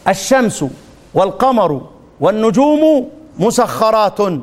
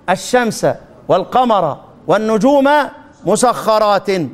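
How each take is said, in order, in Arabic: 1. تنتهي الأسماء بحركة 'u' في آخرها. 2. تنتهي الأسماء بحركة 'a' في آخرها. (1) "من هذا؟ ابن عامر الشامي" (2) "والباقون"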